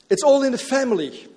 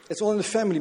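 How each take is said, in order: First: Higher and louder, falling on all; proclaimed. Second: Family weighted, all in the family said evenly; stress on family. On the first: Acted. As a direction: call it out to the congregation. Preacher proclaims the motto. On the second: Shown as a demonstration. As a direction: land the weight on the word family. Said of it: "Met de nadruk op family".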